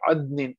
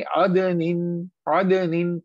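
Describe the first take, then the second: First: अदनिन with d running straight into n; no bounce on the d of अदनिन; without qalqalah. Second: Short echo after d in अदनिन; qalqalah bounce. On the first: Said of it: "इसको भी हम ऐसे नहीं पढ़ेंगे". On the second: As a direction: bounce the d of अदनिन, like "ada-nin". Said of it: "इसे पढ़ेंगे". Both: Shown as a demonstration.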